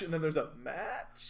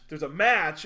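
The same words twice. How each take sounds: First: Softer MATCH, rising like a question; doubtful match. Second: MATCH punched louder, falling at the end; emphatic match. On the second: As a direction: hit MATCH hard as the real thing. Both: Shown as a demonstration. Contrasting kinds of match.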